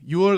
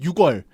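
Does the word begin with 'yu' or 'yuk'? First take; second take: yu; yuk. First: The first syllable is a plain 'yu'. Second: The first syllable ends in a 'k' sound. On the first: The speaker calls it right. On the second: The speaker calls it wrong.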